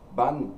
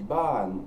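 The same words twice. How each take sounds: First: The pitch stays flat on a short vowel. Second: The pitch rises then falls on a long vowel. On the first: "sans l'intonation et sans la voyelle longue" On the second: "avec l'intonation qui monte et qui redescend"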